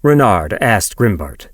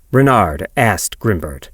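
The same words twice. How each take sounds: The two takes are said the same way.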